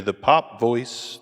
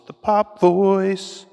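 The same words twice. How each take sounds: First: Said in the usual way. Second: High slow processed pop voice; pop voice effect. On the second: Shown as a demonstration. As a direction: say it through the pop filter. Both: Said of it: "we'll go to the pop voice".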